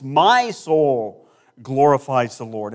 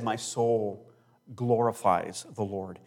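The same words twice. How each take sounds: First: My soul glorifies the Lord proclaimed very slowly and louder; declaiming Mary's words slowly and loudly; slow loud proclamation. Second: Soul and glorifies drawn out slowly; slow solemn scripture read; slow emphatic reading. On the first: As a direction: ring out each word of My soul glorifies the Lord. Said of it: "Notice the words from Mary". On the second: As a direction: savour each word of the verse. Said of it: "I'm gonna read it with some emphasis". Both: Shown as a demonstration.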